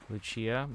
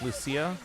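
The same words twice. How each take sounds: First: The name is said the Italian way. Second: The name is said a non-Italian way. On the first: "That's the Italian way" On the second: "it's pronounced Lucia, kind of like how in Fire Emblem"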